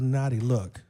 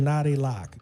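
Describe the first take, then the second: First: The second word has the vowel of 'look'. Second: The second word has the vowel of 'lock'. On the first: The speaker calls it wrong. "not a naughty look" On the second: The speaker calls it right. "It's a naughty lock"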